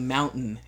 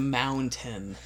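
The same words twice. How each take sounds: First: The T in the middle is dropped. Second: The T in the middle is pronounced. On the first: This is how people in Utah say it. "I don't pronounce T's. I say mountain" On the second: This is how it is said elsewhere. "instead of mountain"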